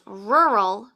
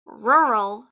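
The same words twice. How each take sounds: No difference in how they are said.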